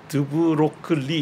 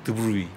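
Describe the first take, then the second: First: A hard 'kl' consonant is sounded in the middle. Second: No consonant is sounded before the final 'ee'. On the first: The speaker calls it wrong. "드브로클리 이렇게 읽으면 안 되고요" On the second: The speaker calls it right. "O G L이 전부 다 묵음이에요"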